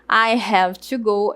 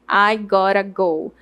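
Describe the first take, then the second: First: Every word is pronounced fully. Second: The words are reduced and linked, flapped t.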